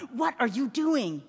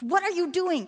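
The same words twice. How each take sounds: First: Slow, tense father's demand; angry hiss. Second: Higher-pitched, urgent demand; angry father. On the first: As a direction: scold in a restrained hiss. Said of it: "he hissed". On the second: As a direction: scold a child in alarm. Alarmed father scolds his son. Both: A narrator's reading.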